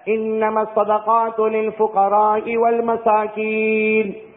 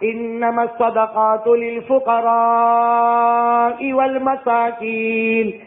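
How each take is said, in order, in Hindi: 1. 'fuqara' में स्वर छोटा रखा जाता है। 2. 'fuqara' में स्वर लंबा खींचा जाता है। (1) "सिर्फ मद नहीं किया" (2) "मेरे नबी ने ऐसे नहीं पढ़ाया बल्कि ऐसे पढ़ाया"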